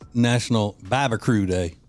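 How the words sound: Barbecue ends with a 'crew' sound.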